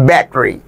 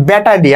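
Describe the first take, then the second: First: "battery" hit hard on its first syllable; stress on first syllable. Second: Said in the usual way. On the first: Shown as a demonstration. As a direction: say "battery" sahib-style, front-stressed and squeezed after. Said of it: "প্রথম দিকে আমরা একটু জোর দিয়ে". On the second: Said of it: "battery আমরা বলি".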